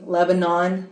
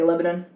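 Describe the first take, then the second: First: Lebanon is said with the standard pronunciation. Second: Lebanon is said with the local Tennessee pronunciation. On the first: This is how the name is usually said. "excuse me" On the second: This is how people from the area say it. "but we say Lebanon"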